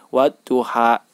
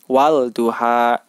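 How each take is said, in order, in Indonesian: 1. L menyatu menjadi bunyi D yang digandakan. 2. Bunyi L pada artikel diucapkan dengan jelas. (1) "Yang benar adalah" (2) "tidak dibenarkan bila membaca"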